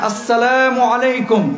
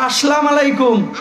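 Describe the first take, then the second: First: Salam ends in a 'u' vowel before alaikum. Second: Salam ends without a vowel before alaikum. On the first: The speaker calls it right. "বলেন আসসালামু আলাইকুম" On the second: The speaker calls it wrong. "এটা শুদ্ধ না ভুল?"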